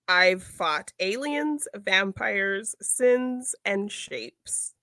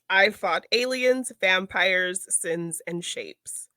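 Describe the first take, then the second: First: It is said more slowly. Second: It is said at a normal speed.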